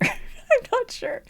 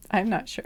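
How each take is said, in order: First: "I'm not sure" pitched high and stretched slow through a laugh; laughing high drawl. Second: Said in the usual way. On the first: Real, not acted. Reader to viewers, laughing high and slow. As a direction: giggle it out, high and dragging. Repeats phrase, second time drawn out.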